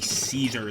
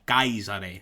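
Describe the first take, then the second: First: The name is said with its modern pronunciation. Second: The name is said with its ancient pronunciation. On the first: The speaker calls it wrong. "It would not be Caesar the way we say it today" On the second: The speaker calls it right. "that's how you would say the name"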